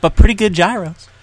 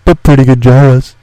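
First: Loud tagline. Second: Lower, much louder put-on voice; lower loud echo. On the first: Acted. Playful ad tagline. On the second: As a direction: echo it in a booming voice. Echoes tagline in lower voice.

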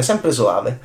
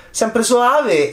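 First: Said in the usual way. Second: "sempre soave" lifted high and drawn out on soave; lilting high. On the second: Shown as a demonstration. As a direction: float it up high, sweetly.

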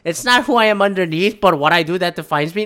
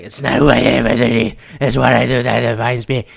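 First: Said in the usual way. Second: Low quoted movie line, a touch far off; quoting Batman. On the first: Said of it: "No, not that one". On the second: Retold or imitated. Quoting Batman Begins to a podcast cohost, lower voice. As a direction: intone the Batman line lower and set apart. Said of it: "it's like".

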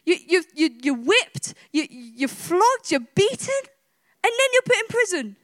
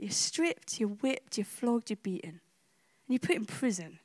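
First: Worked up over imagined injustice; mock indignation. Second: Soft, low listing of each suffering; sober, subdued invitation to imagine; hushed, solemn. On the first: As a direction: pile up each outrage, pitch rising. Imagining injustice that would leave him fuming. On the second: Real, not acted. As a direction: lay each item down gently and low. Solemnly asks listeners to imagine it.

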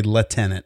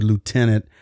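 First: Lieutenant said British-style, without the "loo"; British pronunciation. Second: Lieutenant said American-style, starting "loo"; American pronunciation. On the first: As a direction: say lieutenant as "leh-TEN-ant". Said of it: "If you're from the U K". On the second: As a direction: say lieutenant as "loo-TEN-ant". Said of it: "there's a difference between the way". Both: Shown as a demonstration.

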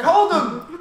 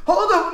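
First: High, loud, laughing yell of "Hold him!"; Superbad quote. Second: High, loud, laughing "Hold him!"; Superbad quote. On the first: Quoting Superbad to friends, high loud laughing yell. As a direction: yell it like the movie scene, cracking up. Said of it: "that scene in Superbad". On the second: Replaying the Superbad line, high loud laughing yell. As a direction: shout it again, still laughing. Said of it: "Now I'm like".

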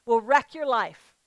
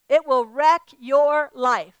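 First: Said in the usual way. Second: Wreck hit hard, slowly and louder; preacher repeating her warning, slow and louder. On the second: Shown as a demonstration. Repeat it slowly and much louder, leaning on wreck.

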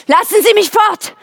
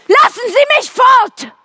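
First: High urgent plea to be let go; pleading cry. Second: Desperate scream. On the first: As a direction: beg to get away, voice rising. Else fleht zu entkommen. (hohes, flehendes Bitten) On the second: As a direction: scream it out in panic, drawn out. Else schreit noch einmal. (verzweifelter, gedehnter Schrei) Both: Acted.

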